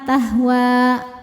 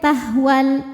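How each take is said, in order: First: The final vowel is held long. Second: The final vowel is short. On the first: The reading stops on this word. "panjang dua harokat" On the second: The reading continues into the next word. "jika diterusin wawunya pendek"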